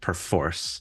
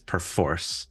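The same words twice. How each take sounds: First: The stress is on the second syllable. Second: The same.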